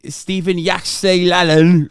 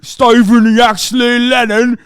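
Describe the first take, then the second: First: Said in the usual way. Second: Put-on slow, higher, louder British lad accent on Stephen Yaxley Lennon; mock British accent. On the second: Streamer repeating the name in a mocking British accent. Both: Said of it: "repeated in accent".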